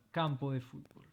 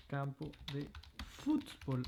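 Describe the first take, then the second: First: Said in the usual way. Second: Fútbol with stress on fú, softer; accent stress shown. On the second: Shown as a demonstration. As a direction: lean on the fú of fútbol. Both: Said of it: "Attention à l'accent".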